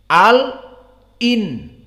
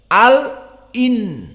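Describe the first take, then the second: No difference in how they are said.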